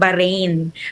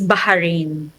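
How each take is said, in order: First: The middle h is weak or barely heard. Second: The middle h is strong and clearly breathed. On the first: This is how foreign residents usually say it. "yung mga tao, ex the expats, sanay sila ng Bahrain" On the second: This is how local people say it. "letter H dito, it's ha talaga ... Pero yung mga locals, it's Bahrain"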